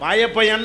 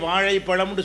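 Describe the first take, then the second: First: It has a plain l sound. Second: It has the retroflex zha sound.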